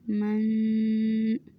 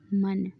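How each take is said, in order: First: The final n is held and nasalized. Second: The final n is short, without nasal hold. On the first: "यहाँ पर मैंने गुन्ना किया है, आवाज़ को मतलब नाक में लेकर गई हूँ।" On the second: "अगर मैं इसको ऐसे पढ़ दूँ ... लाहने खफ़ी हुआ।"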